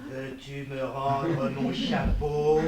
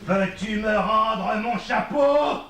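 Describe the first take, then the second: First: Slow, low, word-by-word warning; ominously measured order; menacing demand. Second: Exploding, drawn-out roar; furious demand. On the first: First demand for hat, menacing. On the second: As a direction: shout it word by word, building to the end. Same demand, escalated. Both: Acted.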